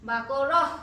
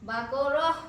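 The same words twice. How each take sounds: No difference in how they are said.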